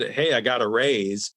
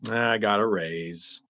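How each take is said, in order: First: It is said with excitement. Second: It is said flatly, without enthusiasm.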